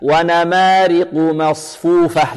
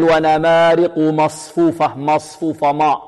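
First: Slow chant, thin light m in مصفوفة before heavy ṣ; light, clean meem. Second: Thickened dark m in مصفوفة, as a mistake; wrongly heavy meem. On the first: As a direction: keep the م of مصفوفة light between heavy letters. (تلاوة متأنية بترقيق ميم مصفوفة) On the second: (نطق خاطئ بتفخيم ميم مصفوفة) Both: Shown as a demonstration. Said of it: "لا بد من ترقيقها هكذا".

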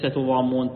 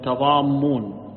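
First: تضامون starting tu-, with a short u; u after the t. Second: تضامون slowly as tadammun, starting ta-; a after t, doubled m. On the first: Teacher rejects a slip, تضامون with u after the t. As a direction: say تضامون as tudammun. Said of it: "عفوا، ليس". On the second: Teacher corrects the reading, slow تضامون with ta- and doubled m. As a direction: open the t of تضامون with a, hold the double m. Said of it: "بفتح التاء وتشديد الميم". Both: Shown as a demonstration.

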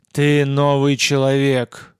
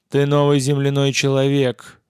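First: Slow, loud, breaking alien croak; synthetic gurgling voice. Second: Loud breaking alien croak, stress on новый; synthetic gurgling voice. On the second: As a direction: gurgle it like a broken machine. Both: A narrator's reading. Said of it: "синтетическим, ломающимся и булькающим голосом". (синтетический булькающий голос)

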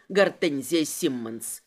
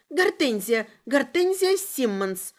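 First: Low, slow mocking name; slow low interrogator's sneer; smug amusement. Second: Scared prisoner's voice; frightened confession. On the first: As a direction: savour the name with a smirk. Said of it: "усмехнулся он". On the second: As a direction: give the name up in fear. Prisoner blurts out her name. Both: A narrator's reading.

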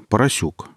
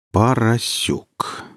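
First: Said in the usual way. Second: Поросюк drawn out very slowly. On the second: A narrator's reading. Stalker weighing up Alexey's surname, very slow. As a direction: stretch out each syllable of Поросюк. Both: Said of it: "медленно произнёс Гриф".

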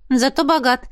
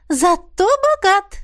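First: Said in the usual way. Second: Slow, high, relishing zato bogat; mother agreeing. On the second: Acted. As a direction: savour «Зато богат» slowly. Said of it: "подтвердила мама". (мама смакует «Зато богат», высоко)

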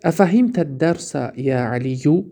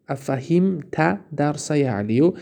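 First: Said in the usual way. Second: Slowed repeat. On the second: Shown as a demonstration. Teacher repeats the example slowly for students.

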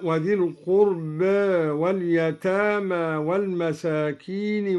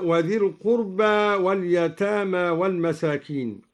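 First: Last vowel of القربى tilted toward "e"; al-Duri's taqlil. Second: Said in the usual way. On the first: Shown as a demonstration. Teacher showing al-Duri's reading, القربى ending in a half-inclined "eh". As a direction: say القربى with its final alef between a and e. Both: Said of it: "قلل أيضًا الدوري ألف القربى".

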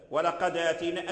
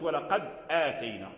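First: "ولقد آتينا" smoothly linked as "walaqadātaynā"; easier, hamza dropped. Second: "ولقد آتينا" split by a firm glottal stop; harder, hamza pronounced. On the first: Teacher showing the easier form of "ولقد آتينا", hamza dropped. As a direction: link "ولقد" into "آتينا" without a glottal stop. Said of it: "أسهل من". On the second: Teacher contrasting the harder form of "ولقد آتينا", full hamza. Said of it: "لو قلت". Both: Shown as a demonstration.

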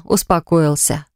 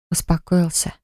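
First: Said in the usual way. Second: Soft breathy tender word; tender whisper. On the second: Acted. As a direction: whisper it gently, soothing. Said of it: "прошептала нежно". (нежный шёпот)

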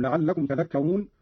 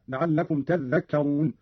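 First: Said in the usual way. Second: تذكرون said "tadhdhakkarun", dhal held double; doubled dhal. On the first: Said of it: "قرأ قالون بتشديد الذال". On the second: Shown as a demonstration. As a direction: lean on a geminated dhal in تذكرون. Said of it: "بتشديد الذال هكذا". (تشديد الذال في تذكرون)

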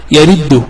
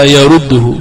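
First: يرده with an i after the ر, "yariddu"; the incorrect "yariddu" vowelling of يرده; wrong kasra form. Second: يرده with a u after the ر, "yaruddu"; the correct "yaruddu" vowelling of يرده; correct damma form. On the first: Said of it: "ولا يأتي". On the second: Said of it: "وإنما". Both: Shown as a demonstration.

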